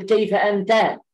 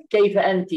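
First: أنت said as "anta", ending in a clear open a; كيف أنت with أنت pronounced "anta" for a man; masculine form. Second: أنت said as "anti", ending in a short i; كيف أنت with أنت pronounced "anti" for a woman; feminine form. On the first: Teacher modelling the masculine أنت as "anta". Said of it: "المذكر تقول". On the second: Teacher modelling the feminine أنت as "anti". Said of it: "والمؤنث". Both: Shown as a demonstration.

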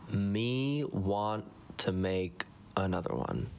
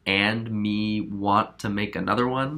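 First: Slow caveman-style repeat of "Me want"; dry self-mocking parrot; mocking echo. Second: Said in the usual way. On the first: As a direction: drag it out, teasing your own grammar. Editor echoes own bad grammar.

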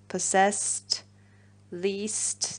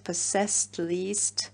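First: Reading possessed and least as a rhyme pair; possessed, least said as if they rhyme; rhyme words read out. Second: Possessed and least repeated with a rising, doubtful tune; possessed, least tried again, asking if they rhyme; questioning the rhyme. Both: Shown as a demonstration. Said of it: "Does that really rhyme?".

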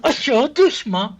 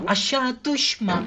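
First: "Aşağı düşme" yelled slowly, higher and louder; desperate slow shout. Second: "Aşağı düşme" stretched out very slowly, higher, under the breath; slow tense plea. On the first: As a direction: shout the plea as the character slips. ("Aşağı düşme" yavaş, yüksek ve bağırarak yalvarma) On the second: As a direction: beg the character slowly not to fall. ("Aşağı düşme" çok yavaş, yüksek perdeden, alçak sesle yalvarma) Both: Real, not acted. Pleading with falling character.

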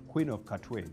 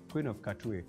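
Both takes have the same delivery.

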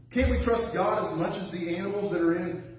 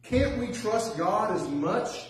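First: Said in the usual way. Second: Slow, drawn-out appeal with can't leaned on; slow preacher's question stressing "Can't"; rhetorical plea. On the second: Acted. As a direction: plead it, stretching "Can't".

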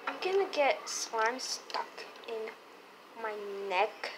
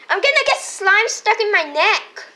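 First: Said in the usual way. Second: Higher louder whine; whiny toy voice. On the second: Pretend. Toy complains, louder repeat.

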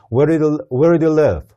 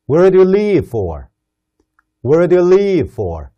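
First: "live" short and relaxed. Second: "leave" with a long, tense "ee". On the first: Teacher contrasting "live" said short with "leave". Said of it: "어디에 사니". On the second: Teacher modelling "leave" with a long vowel for students. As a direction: stretch "leave" clearly. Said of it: "어디로 가려고 떠나니". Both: Shown as a demonstration.

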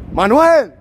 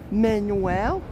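First: "Manuel" loud and high as mahn-WEL, falling; emphatic correct pronunciation. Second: "Manuel" as MAN-yoo-el, softer and rising; American mispronunciation. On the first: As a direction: fire back "Manuel" the Spanish way, loudly. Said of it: "they pronounce my name good". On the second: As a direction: try "Manuel" unsurely as man-you-well. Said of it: "but in America". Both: Retold or imitated.

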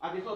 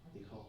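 First: Article said slowly, higher and louder; stress on article. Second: Said in the usual way. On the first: Shown as a demonstration. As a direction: hit the word article hard and slow for the class. (เน้นคำว่า article ช้าๆ ดังและสูงขึ้น) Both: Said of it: "article ตัวนี้จะนำหน้า noun".

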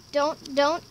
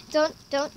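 No difference in how they are said.

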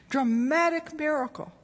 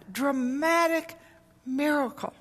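First: Said in the usual way. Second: "dramatic" stretched slow and high, then "miracle"; "dramatic" dragged out slowly with a high pitch, "miracle" apart; drawn-out emphasis. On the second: Shown as a demonstration.

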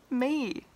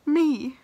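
First: Said in the usual way. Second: Me. said louder, in disbelief; incredulous. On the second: Real, not acted. Realizing she will produce a song, loud disbelief. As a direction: exclaim Me. as if it can't be true. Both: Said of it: "I'm gonna produce a song".

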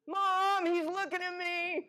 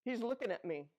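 First: Put-on high, loud whiny kid tattling; whiny tattling little sibling. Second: Said in the usual way. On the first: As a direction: whine it like a kid telling on a brother. Child tattling to mom.

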